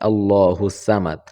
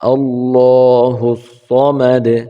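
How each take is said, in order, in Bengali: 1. samad শব্দের s ধ্বনিটি হালকা। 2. samad শব্দের s ধ্বনিটি ভারী। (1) "অনেক মানুষ এটাকে সামাদ বলে থাকে" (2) "এখানে সদ জবর স রয়েছে"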